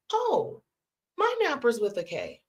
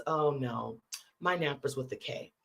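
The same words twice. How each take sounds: First: Retold burst of surprised recognition; astonished realization. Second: Low, understated correction; matter-of-fact correction. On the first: Teller finding her Knappers have a K too, astonished. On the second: Retold or imitated. Friend correcting the spelling of her family name, matter-of-fact.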